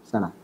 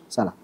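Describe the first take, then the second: No difference in how they are said.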